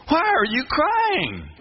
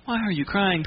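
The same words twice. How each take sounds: First: High, drawn-out, incredulous question; amazed angel. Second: Said in the usual way. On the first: Shown as a demonstration. Angels asking Mary why she weeps, high and astonished. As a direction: stretch it out high, astonished at the tears. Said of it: "from the angel's perspective". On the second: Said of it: "not, "Why are you crying?".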